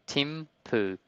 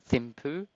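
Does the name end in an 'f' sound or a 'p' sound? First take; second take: p sound; f sound. First: It is said as two plain syllables, Tim Poo. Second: It is said the way it is spelled. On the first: "it's literally Tim Poo" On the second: "it's spelled like Thimphu"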